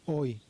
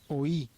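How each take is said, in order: First: The vowels glide together into one syllable. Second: The vowels are split, with stress on the second. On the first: "la I está pegada a la O y entonces suena hoy" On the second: "tenemos la O y la I con más fuerza"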